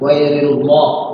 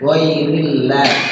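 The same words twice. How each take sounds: First: The L sound is heavy and full. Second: The L sound is light and thin. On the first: The speaker calls it wrong. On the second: The speaker calls it right. "dibaca pakai tarqiq tipis"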